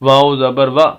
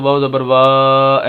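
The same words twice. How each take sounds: First: The final vowel is cut off with a jolt. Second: The final vowel is stretched out long. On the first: "ऐसे झटका भी नहीं देना" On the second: "लंबा करके नहीं पढ़ना ... ऐसे नहीं पढ़ना"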